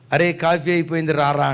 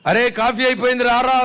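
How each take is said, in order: First: The call is said at a normal volume. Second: The call is said at a raised volume.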